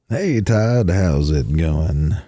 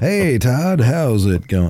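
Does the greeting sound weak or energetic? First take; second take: weak; energetic. First: The greeting sounds weak and low in energy. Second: The greeting sounds stronger and more energetic.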